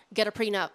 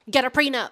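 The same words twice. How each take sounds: First: Firm repeat. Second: Shouted, higher and louder. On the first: When asked to repeat, firm reminder. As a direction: repeat it firmly, a notch louder. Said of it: "What's that? What'd you say?". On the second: Asked a second time, shouting the advice. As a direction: yell it so the back row hears. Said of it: "What's that again?". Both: Pretend.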